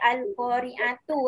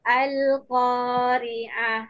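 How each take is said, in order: First: The word ends with a 'tu' sound. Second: The word ends with a short 'h' sound. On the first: The speaker calls it wrong. "jangan ada yang bunyi Al-Qari'atu eh. Salah" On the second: The speaker calls it right. "kalau kita nak berhenti dekat ta bulat ni dia menjadi huruf ha"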